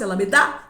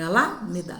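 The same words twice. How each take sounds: First: The stress is on the last syllable. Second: The stress is on the first syllable. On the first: "Se fosse Alameda, eu ia parar no da" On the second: "não é o A"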